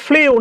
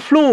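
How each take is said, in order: First: ফ্লিউ with an i-glide before the u; ফ্লিউ, the mistaken "flee-oo" sound; common mispronunciation. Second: ফ্লু with a pure long oo; ফ্লু, one clean "floo" syllable; correct pronunciation. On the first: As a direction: say ফ্লিউ as "fliu". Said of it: "অনেকে আমরা উচ্চারণ করি ফ্লিউ, না". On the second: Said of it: "এটা উচ্চারণ করবেন ফ্লু". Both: Shown as a demonstration.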